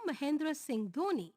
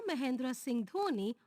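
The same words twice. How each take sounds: The two takes are said the same way.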